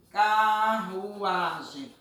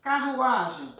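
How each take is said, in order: First: CARRUAGEM stretched very slowly, syllable by syllable; drawn out by syllable. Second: Said in the usual way. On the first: Shown as a demonstration. Teacher gives pupils a word to separate, carruagem drawn out by syllable. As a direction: draw out each syllable of carruagem. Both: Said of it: "Peço a vocês para separar essa palavra".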